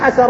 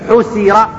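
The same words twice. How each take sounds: First: The first vowel is a, the second a. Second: The first vowel is u, the second i. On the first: He did the uncovering himself. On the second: Something else did the uncovering.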